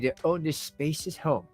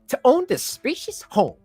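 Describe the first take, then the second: First: It is read in a natural, ordinary voice. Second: It is read in an imitated, put-on voice.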